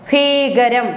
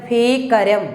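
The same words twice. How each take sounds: No difference in how they are said.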